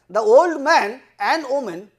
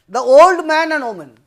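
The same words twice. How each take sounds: First: There is a break after 'the old man'. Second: 'Man and woman' is said as one group.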